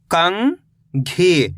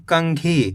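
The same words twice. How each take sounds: First: कंघी as long rising "kang", pause, "ghee"; split syllables. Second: Said in the usual way. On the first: Shown as a demonstration. Teacher breaking down कंघी for learners, split syllables. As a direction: stretch कंघी into two separate syllables. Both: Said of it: "तो मिलके बन जाएगा".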